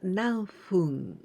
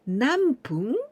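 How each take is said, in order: First: The second part begins with an f sound. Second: The second part begins with a p sound. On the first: "and hum" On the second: "we can pronounce pung"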